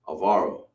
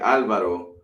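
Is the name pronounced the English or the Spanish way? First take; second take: English; Spanish. First: The name has an English pronunciation. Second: The name has a Spanish pronunciation. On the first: "in English they would pronounce it as Alvaro" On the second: "You would say Alvaro in, in Spanish"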